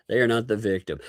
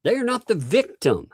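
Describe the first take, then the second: First: They are not the victim said fast and softer, not kept level; a brisk throwaway repeat; quick restated denial. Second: Not pushed high in an emphatic denial; They are NOT the victim, pitched well up and insistent; stress on not. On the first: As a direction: rush through it, no lift on not. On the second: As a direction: hammer the word not. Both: Real, not acted.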